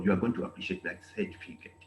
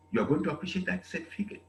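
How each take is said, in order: First: Said in the usual way. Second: "that" pressed, whole line higher; emphasis on that. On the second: Shown as a demonstration. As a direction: lean hard on "that" to drive it home. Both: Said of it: "repeats the line for emphasis".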